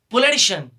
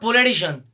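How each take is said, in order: First: The ending is pronounced with a shun sound. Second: The ending is not pronounced with a shun sound. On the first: The speaker calls it right. "The correct pronunciation of this letter is politician" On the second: The speaker calls it wrong. "not politician"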